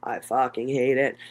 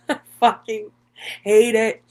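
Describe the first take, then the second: First: Said in the usual way. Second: Hate it pushed up and out, louder; louder, higher repeat. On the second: Real, not acted. Creator admitting to viewers she hates crying, louder and higher. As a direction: repeat it with more force, voice rising. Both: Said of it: "But for someone that cries".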